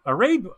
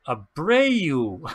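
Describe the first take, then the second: First: Aribu said as uh-REB, wrong first try; mispronounced name. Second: Abreu said uh-BRAY-oo, with the B; corrected name. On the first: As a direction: stumble over Aribu with a short e. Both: Real, not acted.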